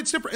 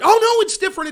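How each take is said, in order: First: Softer, dismissive repeat of different; half-hearted sarcastic echo; mocking excuse, trailing off. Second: High, loud sarcastic sing-song; mock their excuse, loud and high; hammed-up mocking of a hypocrite. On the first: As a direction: let the mock echo of "different" drop away quietly. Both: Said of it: "they could tell you outward".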